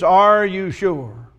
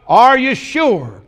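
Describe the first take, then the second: First: Are stretched slowly, searching; slow searching question. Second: Are higher and slowed; raised searching question. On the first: Preacher asks the congregation slowly, probing. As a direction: ask it slowly, let it sink in. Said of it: "the question is". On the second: Preacher presses the congregation with a high, slowed question. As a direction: lift and slow are for emphasis. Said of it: "the subject of". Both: Shown as a demonstration.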